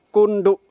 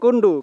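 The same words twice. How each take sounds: First: The stress is on the last syllable. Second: The stress is not on the last syllable. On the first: It names the peak they are heading to. "Ada tekanannya di akhir kata" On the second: It names a different place in East Lombok. "Jadi bukan Kondo, karena kalau Kondo itu adanya di Sembalun"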